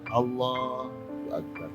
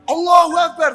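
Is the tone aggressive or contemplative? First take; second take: contemplative; aggressive. First: It is said softly and inwardly, reflectively. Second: It is said forcefully, like a challenge. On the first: The speaker is in inner awe of God. The speaker calls it right. "Kontemplatif, merenung" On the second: The speaker is challenging or showing off. The speaker calls it wrong. "bukan Allahu Akbar"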